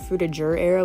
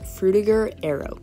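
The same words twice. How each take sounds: First: The g in Frutiger sounds like j. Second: The g in Frutiger is a hard g. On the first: This is an alternative way some people say it. "I think some people say Frutiger Arrow as well" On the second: This is the original European way to say it. "it's pronounced Frutiger Arrow ... is with a ger, not jur, so I just went with that"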